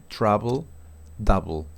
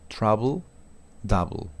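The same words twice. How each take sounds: The two takes are said the same way.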